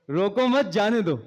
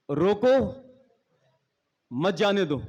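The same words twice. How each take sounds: First: रोको मत joined, then जाने दो; don't stop them. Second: रोको then a long pause, मत जाने दो; don't let go. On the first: Speaker showing wordplay, रोको मत as one phrase. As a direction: join मत to रोको, break before जाने दो. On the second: Speaker showing wordplay, pause after रोको. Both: Shown as a demonstration. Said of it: "अल्फाजों के थोड़े से हमें, अ, हेर फेर".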